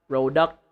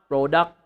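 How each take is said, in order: No difference in how they are said.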